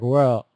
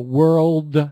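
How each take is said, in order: First: The final L and D sounds are dropped. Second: The final L and D sounds are clear. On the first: The listener cannot tell what was said. The speaker calls it wrong. "your tendency is not to hit that ending so hard, and then we just lose it" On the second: The listener understands the word. The speaker calls it right. "Oh, yeah, I know what you said"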